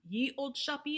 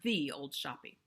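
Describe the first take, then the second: First: The first word begins with a y sound. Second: The first word begins with a th sound. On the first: The speaker calls it wrong. "It's not ye old shoppy" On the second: The speaker calls it right. "it's the old shoppy"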